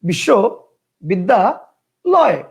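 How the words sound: The word is broken into three separate parts. "তিনটা"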